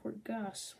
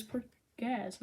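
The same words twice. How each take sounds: First: "Port Gas" with a hissed s at the end; Gas pronunciation. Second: "Port Gaz" with a buzzing z at the end; Gaz pronunciation. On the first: Reader rejecting the other name, "Port Gas" with soft s. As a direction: say "Port Gas", final s unvoiced like gas. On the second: Reader recalling the manga name, "Port Gaz" with voiced z. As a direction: say "Port Gaz", voicing the final z. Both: Shown as a demonstration. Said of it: "not Port Gas".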